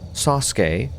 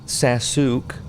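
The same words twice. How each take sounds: First: The 'u' after the 's' is silent. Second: The 'u' after the 's' is fully voiced.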